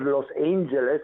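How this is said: It is said with an American English pronunciation.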